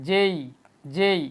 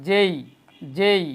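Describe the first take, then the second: The two takes are said the same way.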